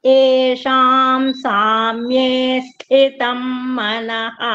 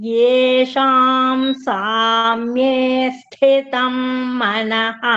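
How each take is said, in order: The two takes are said the same way.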